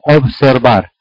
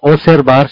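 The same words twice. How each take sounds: First: The b sound before the s is pronounced. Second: The b sound before the s is dropped. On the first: The speaker calls it right. "sino observar. O sea, no tragarse la B" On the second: The speaker calls it wrong. "No se dice observar"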